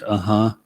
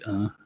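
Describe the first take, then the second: First: The h is followed by an echoed vowel. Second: The h ends bare with no echoed vowel. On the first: "some people pronounce aha, ihi, like that" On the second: "It can just be ah"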